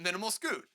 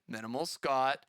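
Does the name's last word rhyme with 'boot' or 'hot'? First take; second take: boot; hot. First: The last word has a long 'oo' vowel. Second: The last word has a short 'ah' vowel. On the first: The speaker calls it wrong. "You're gonna say the name right? No" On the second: The speaker calls it right. "you gotta say it right. All right. Sorry"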